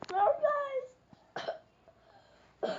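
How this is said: It is said in a high-pitched voice.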